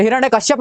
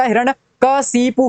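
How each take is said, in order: First: हिरण्यकश्यप ending in kash-yap; mistaken kashyap. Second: हिरण्यकशिपु slowly, ending ka-si-pu; corrected kashipu. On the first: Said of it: "नहीं होता". (हिरण्यकश्यप, अंत में कश्यप) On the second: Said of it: "होता है". (हिरण्यकशिपु, धीरे से कशिपु) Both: Shown as a demonstration.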